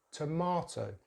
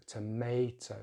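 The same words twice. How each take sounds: First: "tomato" as tuh-MAH-toh; British "tomato" with long ah; British pronunciation. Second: "tomato" as tuh-MAY-toh; American "tomato" with ay; American pronunciation. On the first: Teacher contrasts accents, "tomato" with ah. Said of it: "we're using the long vowel sound". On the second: Teacher contrasts accents, "tomato" with MAY. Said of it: "American English, they have a slightly different". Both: Shown as a demonstration.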